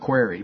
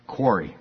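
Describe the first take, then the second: First: The word has the speaker's regional pronunciation. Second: The word has the standard pronunciation. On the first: This is how people say it where the speaker is from. The speaker calls it wrong. "from where I'm from, it's quarry" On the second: This is the accepted way to say it. The speaker calls it right. "But I know it's quarry"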